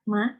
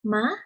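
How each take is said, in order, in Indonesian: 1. Nadanya ringan dan netral. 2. Nadanya terdengar kaget, seperti seruan terkejut. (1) "nada kelima ini bersifat netral" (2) "Nada kedua seperti nada kaget"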